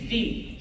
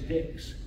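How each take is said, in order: First: It sounds like 'dee', with no final x sound. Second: It sounds like 'dicks', with a final x sound. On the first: This is how French speakers say it. "the French word for ten ... It is D" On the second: This is how boatmen who spoke no French said it. "they pronounced that word as Dix"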